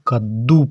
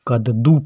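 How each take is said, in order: First: The d is doubled with no vowel between. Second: The d is a full syllable with a vowel. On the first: "यह दा आधा दा है, इसको हम कद्दू पढ़ेंगे" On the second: "अगर यह दा के नीचे हलंत का चिन्ह नहीं होता तो इसको हम कद्दू पढ़ते"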